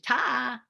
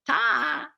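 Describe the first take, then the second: First: The final R sound is dropped. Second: The final R sound is dropped.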